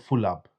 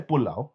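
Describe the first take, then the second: First: The word begins with an f sound. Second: The word begins with a p sound. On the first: The speaker calls it wrong. "It just sounds like you're saying you're full up" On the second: The speaker calls it right. "We say pulau with the P"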